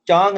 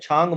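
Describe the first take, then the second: First: The first consonant has no puff of air. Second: The first consonant has a puff of air. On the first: The speaker calls it wrong. "चांग नहीं बोल रहा हूँ मैं" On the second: The speaker calls it right. "मैं छांग बोल रहा हूँ"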